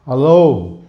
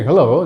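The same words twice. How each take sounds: First: "hello" with the H weakened, like "alo"; Indian pronunciation. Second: Hello with a sounded H; "hello" as the model greeting; proper pronunciation. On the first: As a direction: say "hello" as a flat, drawn-out "alo". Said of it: "Even they may not say". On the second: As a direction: say "hello" with a clear opening H. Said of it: "the pronunciation is very essential for that". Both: Shown as a demonstration.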